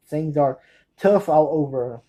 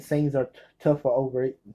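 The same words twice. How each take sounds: First: Slow, separated "tough all over"; slowed-down repeat. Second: Tumbling quickly through "tough all over"; too fast. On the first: Fan correcting a too fast title, "tough all over" said slowly. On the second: Fan naming a film too fast, "tough all over" run together. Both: Real, not acted. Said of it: "I say it too fast".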